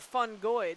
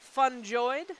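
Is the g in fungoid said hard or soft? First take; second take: hard; soft. First: The g is said as a hard g sound. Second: The g is said as a soft j sound. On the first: "with a g g g g g" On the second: "with a j j j j"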